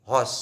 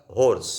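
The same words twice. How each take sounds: First: हॉर्स with an open aw and silent r; international pronunciation. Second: होर्स with a long o and sounded r; Indian pronunciation. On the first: Teacher contrasting it for students, international pronunciation of हॉर्स. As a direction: say हॉर्स as "hawss", dropping the r. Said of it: "हा international उच्चार आहे". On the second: Teacher showing students the Indian way, Indian pronunciation of होर्स. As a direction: say होर्स the Indian English way, r pronounced. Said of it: "Indian उच्चार आहे". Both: Shown as a demonstration.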